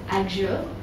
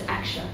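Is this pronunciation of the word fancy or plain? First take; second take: fancy; plain. First: The word is said in a fancy way. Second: The word is said in a plain way. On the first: "There's the fancy way" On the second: "the other way"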